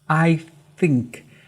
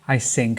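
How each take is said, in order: First: The word begins with a th sound. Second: The word begins with an s sound. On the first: The speaker calls it right. "Try to use your tongue" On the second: The speaker calls it wrong. "he says I sync. Very common mistake"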